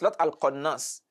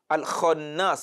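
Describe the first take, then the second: First: The word uses a deep stopped q sound. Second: The word uses a rough throat kh sound. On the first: The speaker calls it wrong. "So don't mistake it for qaf" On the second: The speaker calls it right. "the right letter there is kha"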